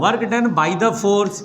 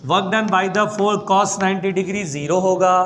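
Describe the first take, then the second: First: "work done by the force" drawn out slowly, each word weighted; slow emphatic phrase. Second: Said in the usual way. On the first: Shown as a demonstration. Teacher stressing the key phrase for students, slowly. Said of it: "देखो मैं वो जोर दे के बोल रहा हूँ". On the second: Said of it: "जोर दे के बोल रहा हूँ".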